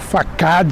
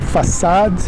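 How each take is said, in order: First: The word is read as it is spelled. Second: The word is said in the English way. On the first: "vamos dizer assim" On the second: "Mas a pronúncia é façade"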